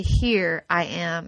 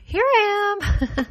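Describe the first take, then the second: First: Low, slow calm reply; God answering a desperate cry for help; gentle divine answer. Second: Put-on high, slow little kid reply; small child piping up from another room; child answering. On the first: Acted. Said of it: "he will say".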